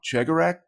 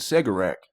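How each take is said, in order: First: The name begins with a ch sound. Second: The name begins with an s sound. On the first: The speaker calls it right. "I think I've been saying that wrong" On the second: The speaker calls it wrong. "I've been saying Segarak"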